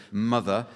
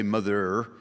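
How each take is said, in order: First: Said in the usual way. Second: Northern English "mother" with a hard final R; northern rhotic accent. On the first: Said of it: "the hard pronunciation of the letter R". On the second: Shown as a demonstration. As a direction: say "mother" the northern way, sounding the R at the end. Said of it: "a genuine northern accent involves the rhotic R".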